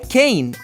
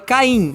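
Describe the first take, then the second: First: The name is pronounced with English sounds. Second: The name is pronounced with Portuguese sounds. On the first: "Em inglês" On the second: "em português"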